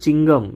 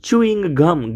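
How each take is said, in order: First: It is squeezed into a short two-syllable form. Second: It is said fully as two separate words. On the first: The speaker calls it wrong. "તમે કહો છો ચિંગમ" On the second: The speaker calls it right. "Actually સાચો શબ્દ છે ચ્યુઇંગ ગમ"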